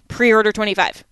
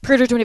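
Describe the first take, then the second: First: The code is said at a normal pace. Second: The code is said very quickly, run together.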